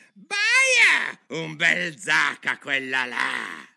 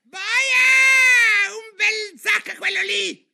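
First: High, drawn-out yell, dropping on the sentence; shrieking. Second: Piercing, very high, drawn-out scream; shrieking. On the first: Queen yelling at a lady player, shrieking. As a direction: yell it slowly, less piercingly than a full scream. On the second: Queen yelling at players during the game, shrieking. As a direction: shriek it at the top of your voice. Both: A narrator's reading. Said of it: "baccagliare con tutti e di strillare".

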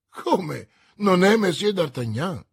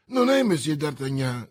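First: Loud, higher disbelieving question; astonished exclamation. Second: Said in the usual way. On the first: A narrator's reading. Commissioner learning he has the wrong man, astonished. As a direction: echo it back in loud astonishment. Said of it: "esclamò il commissario". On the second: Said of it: "interruppe Bonacieux".

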